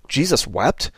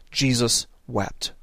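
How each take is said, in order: First: "Jesus wept?" asked as if in disbelief; half-incredulous "Jesus wept?"; questioning. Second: Slow, soft and low, "Jesus wept." laid down gravely; hushed, slow "Jesus wept."; solemn reading. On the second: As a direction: read "Jesus wept." slowly and reverently, letting it sit. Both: Shown as a demonstration.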